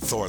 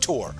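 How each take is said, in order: First: The name begins with a th sound. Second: The name begins with a plain t sound. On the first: "he doesn't pronounce it Thor" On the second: "In Norway, it's pronounced Tor because they don't have the T H sound"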